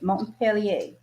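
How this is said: The name is said with a French pronunciation. "I think that's how you say it in French"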